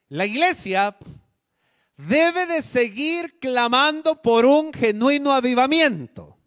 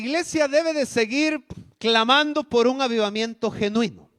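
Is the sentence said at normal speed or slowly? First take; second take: slowly; normal speed. First: It is said more slowly. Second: It is said at normal speed.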